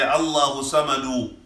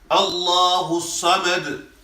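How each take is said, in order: First: The last word ends with an added vowel. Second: The last word ends on a consonant. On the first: The speaker calls it wrong. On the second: The speaker calls it right.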